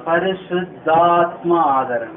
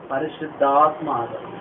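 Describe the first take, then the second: First: పరిశుద్ధాత్మ stretched slow and weighty; slow, solemn పరిశుద్ధాత్మ ఆదరణ; drawn-out answer. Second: Said in the usual way. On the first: Shown as a demonstration. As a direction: answer slowly, leaning on పరిశుద్ధాత్మ. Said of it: "ఏ ఆదరణ?". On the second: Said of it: "ఏ ఆదరణ అంటే ఇది?".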